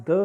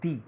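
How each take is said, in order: First: "the" with a short schwa; "the" as thuh. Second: "the" with a long ee, standing alone; "the" as thee. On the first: Teacher repeats students' question, "the" said "thuh". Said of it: "When do you pronounce". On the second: Teacher repeats students' question, "the" said "thee". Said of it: "when do you pronounce". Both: Shown as a demonstration.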